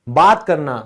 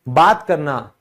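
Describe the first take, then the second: No difference in how they are said.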